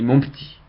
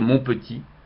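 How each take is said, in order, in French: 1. La première voyelle de petit est supprimée. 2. La première voyelle de petit est prononcée. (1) "c'est écrit P T I T" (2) "il ne faut pas dire"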